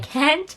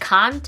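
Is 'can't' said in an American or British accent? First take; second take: American; British. First: The word is said with an American accent. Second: The word is said with a British accent. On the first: "I say can't" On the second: "they say can't"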